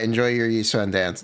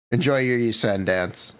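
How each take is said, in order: First: Said in the usual way. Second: Laughing through the line. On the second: Real, not acted. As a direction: chuckle while saying it. Laughing at wrong character.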